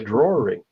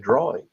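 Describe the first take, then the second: First: It is said in a New Hampshire accent. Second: It is said in a plain local accent.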